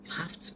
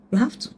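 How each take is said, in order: First: Much softer, almost to herself; soft repeat. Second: Said in the usual way. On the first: Shown as a demonstration. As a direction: let it fall away quietly. Repeats the insistence twice.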